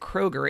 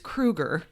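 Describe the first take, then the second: First: The first vowel sounds like 'oh'. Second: The first vowel sounds like 'oo'. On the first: The speaker calls it wrong. "We used to always pronounce it Kroger" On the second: The speaker calls it right. "His last name is Kruger"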